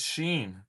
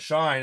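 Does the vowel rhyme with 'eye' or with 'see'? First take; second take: see; eye. First: The vowel sounds like 'ee', as in sheen. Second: The vowel sounds like 'eye', as in shine. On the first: "people were like, "It's Sheen."" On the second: "I always called it Shine"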